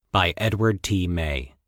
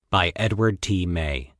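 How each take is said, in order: Both takes have the same delivery.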